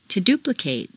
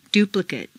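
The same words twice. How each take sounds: First: "duplicate" ending in long "-KATE"; full A ending. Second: "Duplicate" ending in weak "-kut"; reduced ending. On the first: Teacher models verb "duplicate" with full final A. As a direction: open out the last A of "duplicate". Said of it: "it's a full A sound". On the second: Teacher models adjective "Duplicate" with reduced final vowel. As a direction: shrink the last vowel of "Duplicate". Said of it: "completely reduced". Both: Shown as a demonstration.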